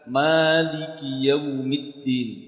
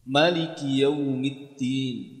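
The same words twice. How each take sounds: First: The vowel after the m is long. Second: The vowel after the m is short. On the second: "Artinya mimnya dibaca pendek"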